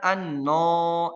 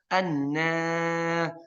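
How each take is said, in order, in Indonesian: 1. Vokal panjangnya tebal dan gelap. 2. Vokal panjangnya tipis dan ringan. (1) "ibu bacanya an-no. Nah ini alif tebal" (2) "Tapi harusnya gimana?"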